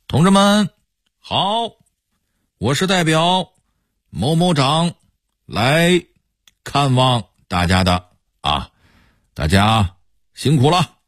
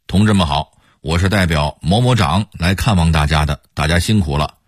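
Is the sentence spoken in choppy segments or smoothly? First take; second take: choppy; smooth. First: It is cut into many pauses with drawn-out endings. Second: It flows smoothly in a natural, normal tone. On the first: "用官腔说，可能就会成这样了……这官腔能给切成十几段" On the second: "如果用正常的普通话腔调说，会很自然"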